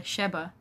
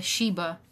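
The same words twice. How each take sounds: First: "Sheba" with a short e, SHEB-uh; alternative pronunciation. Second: "Sheba" with a long ee, SHEE-buh; first pronunciation. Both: Shown as a demonstration. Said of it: "I don't know how to pronounce this".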